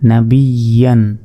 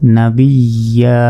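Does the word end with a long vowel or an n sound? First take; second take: n sound; long vowel. First: The word ends with a final n sound. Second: The word ends in a long vowel without n. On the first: Reading continues past this word. "ইয়া দুই জবর ইয়ান" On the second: Reading stops on this word. "যদি ওয়াকফ করি"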